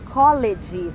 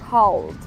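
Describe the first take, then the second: First: The ending is an extra 'ed' syllable. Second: The ending is a bare 'd' sound. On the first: The speaker calls it wrong. "não tem som de E D, não é college" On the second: The speaker calls it right. "é called. Called, com som de D"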